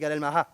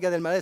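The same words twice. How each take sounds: First: The last name ends with an Arabic-style 'mallah'. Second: The last name ends with a French-style 'maleh'. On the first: The speaker calls it right. "c'est Gad Elmaleh. Mallah" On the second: The speaker calls it wrong. "c'est pas Gad Elmaleh"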